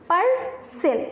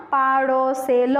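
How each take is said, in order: First: パースェル: say পার্সেল with a clear r after the long a, stress the first syllable; পার্সেল with the r sounded, falling tune; correct pronunciation. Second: পারসেল said slowly without the r, as the wrong way; wrong pronunciation. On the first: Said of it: "আমরা বলি পার্সেল". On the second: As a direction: drag out পারসেল slowly as the mistake. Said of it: "আমরা কিন্তু কখনোই পারসেল এরকম বলি না". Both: Shown as a demonstration.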